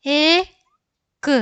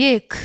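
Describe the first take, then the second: First: Very slow, high held vowel, separate k; letter by letter. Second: Said in the usual way. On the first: Shown as a demonstration. Teacher sounding out a word for learners, letter by letter. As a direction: stretch the vowel, then release the consonant.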